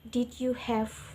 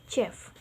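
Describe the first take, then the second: First: Each of the three words is said separately. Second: The words blend into one short syllable. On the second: "dia mengubahnya menjadi Jeff. Jeff, kata Jeff seperti ini"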